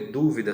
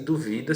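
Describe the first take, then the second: First: The stress is on the first syllable. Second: The stress is on the second syllable.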